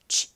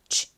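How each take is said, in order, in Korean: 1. 바람 빠지듯 약하고 숨이 섞인 소리예요. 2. 바람 빠지듯 약하고 숨이 섞인 소리예요.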